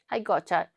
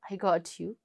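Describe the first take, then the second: First: The last words blur into one word. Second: Every word is said separately and fully.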